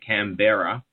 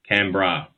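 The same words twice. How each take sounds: First: The name is said with its full syllables. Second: The name is said in a shortened form. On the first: This is how outsiders say it. "A lot of people say Canberra" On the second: This is how locals say it. "We just shorten it once again, and we just say Canberra"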